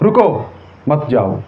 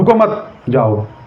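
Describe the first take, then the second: First: The pause comes right after the first word. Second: The pause comes right after the second word.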